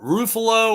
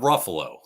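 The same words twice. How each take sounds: First: The name does not rhyme with Buffalo. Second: The name rhymes with Buffalo. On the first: The speaker calls it wrong. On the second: The speaker calls it right.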